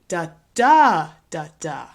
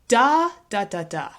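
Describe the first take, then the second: First: The stress is on the second syllable. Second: The stress is on the first syllable.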